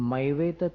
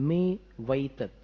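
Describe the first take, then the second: First: The first syllable has the 'ai' vowel. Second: The first syllable has the 'e' vowel. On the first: The speaker calls it wrong. "इसका उच्चारण जो है वासना मात्र मैवे तत् नहीं है" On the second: The speaker calls it right. "मैं वै तत् नहीं है ना"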